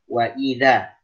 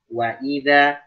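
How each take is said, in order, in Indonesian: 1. Hamzahnya dibaca penuh dan jelas. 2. Hamzahnya dibaca penuh dan jelas.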